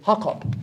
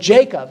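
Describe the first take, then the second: First: The name begins with a Y sound. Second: The name begins with a J sound. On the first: "is actually Jacob" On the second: "the word Jacob"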